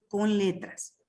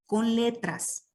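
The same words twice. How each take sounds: First: Said in the usual way. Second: "con letras" drawn out slowly, each word spaced; slow, deliberate. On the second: Shown as a demonstration. Teacher explaining the notation to students, slow and deliberate. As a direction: stretch "con letras" as if dictating.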